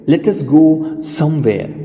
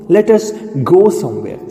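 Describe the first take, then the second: First: Very slow, word by word; teacher models it slowly for students; slow model sentence. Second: Said in the usual way. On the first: Shown as a demonstration. Slow drilled sentence for learners. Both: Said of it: "બોલો".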